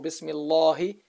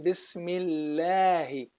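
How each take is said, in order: First: The L sound is heavy and thick. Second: The L sound is light and thin. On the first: The speaker calls it wrong. "no, or" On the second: The speaker calls it right. "You say Bismillahi"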